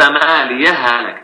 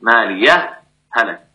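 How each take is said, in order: First: The final h merges into the next h without pause. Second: A brief pause separates the two words. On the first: "أدغمت" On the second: "تظهر مع السكت"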